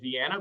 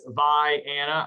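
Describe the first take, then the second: First: The name is said the common, usual way. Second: The name is said the local Illinois way. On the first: This is how outsiders usually say it. "I know everybody's going to say Vienna" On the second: This is how the town's own people say it. "Illinois uh, pronunciation of Vi-Anna"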